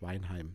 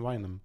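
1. Der Name wird auf Hochdeutsch gesprochen. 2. Der Name wird im Dialekt gesprochen. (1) "und das heißt auf Hochdeutsch Weinheim" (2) "ab und an so ein bisschen Mannemarisch ist immer ganz nett"

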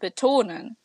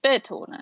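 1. Betont ist die zweite Silbe. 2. Betont ist die erste Silbe. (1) "die meisten Wörter ... werden auf 2 betont" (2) "und nicht"

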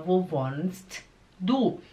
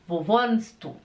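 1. Falado devagar, com o t bem pronunciado. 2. Falado naturalmente, com o som do t omitido. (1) "Falado devagar" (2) "Quando você pergunta para alguém, ... O T, ele desaparece"

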